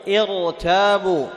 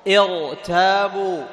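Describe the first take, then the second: Both takes have the same delivery.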